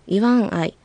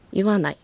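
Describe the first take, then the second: First: The two parts are said separately, with four syllables. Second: The parts merge into a shorter three-syllable word.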